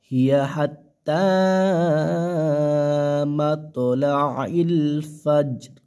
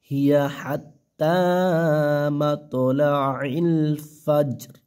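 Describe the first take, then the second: No difference in how they are said.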